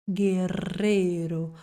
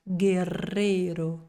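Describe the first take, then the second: Both takes have the same delivery.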